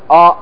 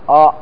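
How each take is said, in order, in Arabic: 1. الصوت مفخَّم، فيه ثِقَل وعمق. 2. الصوت مفخَّم، فيه ثِقَل وعمق.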